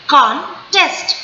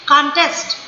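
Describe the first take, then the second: First: contest slowly split, con... test; two separate stresses. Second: Said in the usual way. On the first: Shown as a demonstration. Teacher demonstrating two syllables, contest split slowly. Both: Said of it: "दो बार करेंगे".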